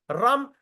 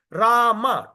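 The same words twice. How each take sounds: First: "Ram" said as a single short syllable; clipped one-syllable Ram. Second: "Rama" said fully as two syllables, RA-ma; full two-syllable Rama. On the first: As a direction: say "Ram" cut short, the wrong way. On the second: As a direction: give "Rama" both its syllables clearly. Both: Shown as a demonstration. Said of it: "two syllable".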